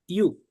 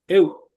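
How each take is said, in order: First: The diphthong sounds like yoo. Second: The diphthong sounds like eh-oo.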